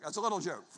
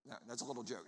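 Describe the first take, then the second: First: Said in the usual way. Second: "little joke" dropped low and soft; a soft low throwaway to the crowd; quiet aside. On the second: Shown as a demonstration. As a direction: mutter it under your breath as a quick aside.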